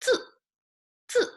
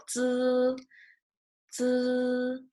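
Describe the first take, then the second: First: "zi" cut short with a quick fall from high; fourth tone. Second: "zi" held long on a high, level pitch; flat first tone. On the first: Teacher contrasting tones for students, short falling fourth tone. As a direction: drop "zi" sharply and briefly, no holding. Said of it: "And with fourth tone". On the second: Teacher showing the sound stays the same, flat first tone. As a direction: sustain "zi" evenly without any fall. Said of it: "First tone is a flat tone". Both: Shown as a demonstration.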